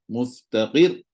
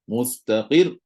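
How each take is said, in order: The two takes are said the same way.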